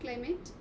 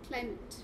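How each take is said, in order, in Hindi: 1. दूसरे अक्षर पर ज़ोर है। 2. दूसरे अक्षर पर ज़ोर नहीं है। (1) "It's not climate" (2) "The word A should not be stressed"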